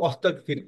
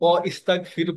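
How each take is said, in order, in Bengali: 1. wa সরাসরি s ধ্বনিতে গিয়ে মেশে। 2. wa-এর পরে একটি আলাদা i স্বর শোনা যায়। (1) "এটা বলি কি অস্তাগফির" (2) "এই জন্য আমরা এটাকে অইস্তাগফির বলি না"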